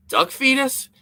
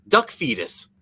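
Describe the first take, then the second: First: Duck fetus? with the pitch jumping way up on fetus; incredulous question. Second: Said in the usual way. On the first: Retold or imitated. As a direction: repeat it back in disbelief, voice leaping high. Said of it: "I was like". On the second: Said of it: "He was like".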